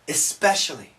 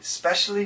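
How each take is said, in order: First: The opening vowel sound is pronounced. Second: The opening vowel sound is dropped. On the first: The speaker calls it right. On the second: The speaker calls it wrong.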